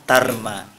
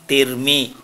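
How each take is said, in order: First: The syllables are said with an a vowel. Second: The syllables are said with an i vowel. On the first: "Kalau dibaca fathah" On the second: "Kalau dibaca kasroh"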